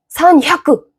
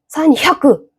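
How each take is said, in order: First: The h sound in the middle is strong and forceful. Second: The same.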